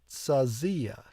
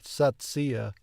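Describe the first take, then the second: First: The z is said as a z sound. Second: The z is said as a ts sound. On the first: The speaker calls it right. "But I think it's more of a Z sound like like zebra" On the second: The speaker calls it wrong. "I want to pronounce the Z like a T S, like the Germans do"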